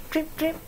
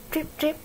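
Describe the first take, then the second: No difference in how they are said.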